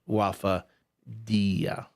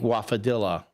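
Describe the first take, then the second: First: The double L is said as a Y sound. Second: The double L is said as an L sound. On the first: It is said like quesadilla. The speaker calls it right. "it should be" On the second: It is read as it is spelled. The speaker calls it wrong. "when I read it, I think"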